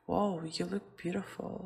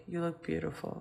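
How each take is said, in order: First: A touch of delight on the compliment; excited exclamation. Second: Said in the usual way. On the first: Shown as a demonstration. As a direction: say it with a little mild excitement. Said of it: "we're expressing an excitement". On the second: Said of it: "it will be more like".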